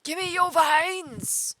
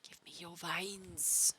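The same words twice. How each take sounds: First: High, slow, shrill-free cartoon alien demand; Zim voice. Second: Said in the usual way. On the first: Streamer plays greedy cartoon alien, Zim voice. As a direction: squeal it like Invader Zim. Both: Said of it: "just doing the Zim voice".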